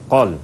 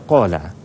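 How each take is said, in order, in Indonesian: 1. Kata ini berakhir dengan konsonan mati. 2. Kata ini berakhir dengan vokal tambahan. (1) "dia mati" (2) "Jangan baca qala"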